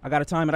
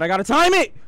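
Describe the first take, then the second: First: Said in the usual way. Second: High, loud urgent yell; panicked yell. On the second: Real, not acted. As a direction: yell it in panic before the jump. Panicked repeat, much louder.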